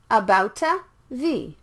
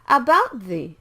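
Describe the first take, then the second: First: An extra vowel is added after the T. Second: The T blends into the TH with no vowel. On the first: The speaker calls it wrong. "not abouta the" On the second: The speaker calls it right. "The T and the T H are similar sounds"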